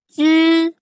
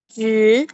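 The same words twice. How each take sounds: First: It is said in the first tone. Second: It is said in the second, rising tone. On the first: "dari yang pertama itu" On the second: "nada kedua itu berarti naik"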